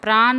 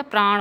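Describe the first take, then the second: First: प्राण ending in a dental n; wrong pronunciation. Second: प्राण ending in retroflex ṇ; correct pronunciation. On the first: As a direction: say प्राण as praan, tongue at the teeth. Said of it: "प्राण नहीं होता". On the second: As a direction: say प्राण as praaṇ, tongue curled back. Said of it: "प्राण होता है". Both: Shown as a demonstration.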